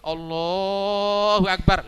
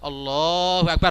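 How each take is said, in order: First: The vowel in Allah is held far too long. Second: The vowel in Allah is held about three beats. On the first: "Tapi kalau Allahu Akbar lain lagi itu" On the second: "Lebih banyak sedikit mungkin tiga harokat ada toleransi itu. Agak"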